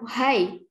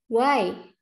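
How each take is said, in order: First: An h sound is pronounced in the word. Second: No h sound is pronounced in the word. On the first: The speaker calls it wrong. "Kalian nggak usah baca why" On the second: The speaker calls it right. "Cukup baca why"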